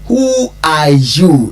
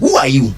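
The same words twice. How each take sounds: First: It is asked in a polite tone. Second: It is asked in an angry tone.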